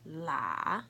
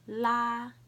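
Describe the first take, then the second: First: The pitch dips low, then rises. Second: The pitch stays high and level.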